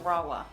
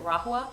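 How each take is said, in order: First: No H sound is pronounced in the middle. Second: An H sound is pronounced in the middle. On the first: The speaker calls it right. "it's actually pronounced Rahua" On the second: The speaker calls it wrong. "I used to pronounce it Rahua because of the H"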